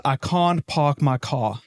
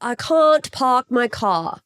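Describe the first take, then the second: First: Slow South African vowels; deliberate South African accent; South African accent demo. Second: Slow attempt at South African vowels; South African imitation with British twang; imitating husband's South African accent. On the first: Shown as a demonstration. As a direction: show the South African "can't park my car" vowels. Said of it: "why don't you try to say this?". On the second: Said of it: "I'll try to imitate you".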